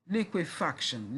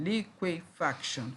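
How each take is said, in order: First: Said in the usual way. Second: "liquefaction" slowly in four separate beats; syllable by syllable. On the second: Shown as a demonstration. Teacher counting four syllables, syllable by syllable. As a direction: break "liquefaction" apart at each syllable. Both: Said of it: "four syllables".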